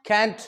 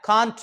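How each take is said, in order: First: कैंट punched out with a front "ae"; overdone American vowel. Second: कांट punched louder, with open "aa"; overdone British vowel. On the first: Teacher showing an overdone accent, कैंट with strong "ae". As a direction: stress कैंट, vowel as in "cat". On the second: Teacher showing an overdone accent, कांट loud with open "aa". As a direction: hit कांट hard with a full "aa". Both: Shown as a demonstration. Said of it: "ज्यादा full band से बोलेगा तो".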